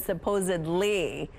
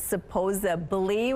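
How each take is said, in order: First: A d sound comes before the ending. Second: A b sound comes before the ending. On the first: The speaker calls it right. "rather than supposedly" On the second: The speaker calls it wrong. "with a B"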